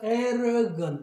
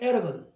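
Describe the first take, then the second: First: The word is said at a slow pace. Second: The word is said at a fast pace.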